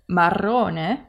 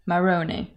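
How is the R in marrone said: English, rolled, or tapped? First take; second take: rolled; English. First: The R is fully rolled with several trills. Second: The R is a soft English-style R. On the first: The speaker calls it right. "with the full roll" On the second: The speaker calls it wrong. "it sounds a lot better than marrone"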